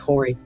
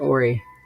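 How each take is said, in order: First: The word begins with an H sound. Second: The word begins with a vowel sound. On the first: This is how the speaker insists it should be said. "It's Horry" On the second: This is how the locals say it. "They pronounce it Ori"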